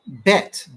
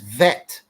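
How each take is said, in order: First: The word begins with a B sound. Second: The word begins with a V sound. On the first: "it's Bet, B E T" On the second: "But in Hebrew, the B is a V. So it's vet"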